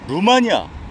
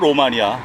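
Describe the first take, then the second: First: The first vowel sounds like 'oo'. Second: The first vowel sounds like 'oh'. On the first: The name loses its link to Rome. The speaker calls it wrong. "저는 이 발음이 잘못됐다고 봐요" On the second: The name means land of the Romans. The speaker calls it right. "로마니아라 그래야 되는데"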